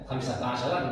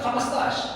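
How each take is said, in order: First: It is said in full Standard Arabic. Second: It is said in shortened Saudi dialect.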